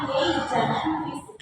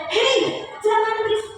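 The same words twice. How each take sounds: First: Said in the usual way. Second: "Hei" jumps up high, "jangan berisik" stays raised and firm; sharp intonation. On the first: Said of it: "Biasa aja". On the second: Shown as a demonstration. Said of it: "Itu semua tergantung dengan intonasi".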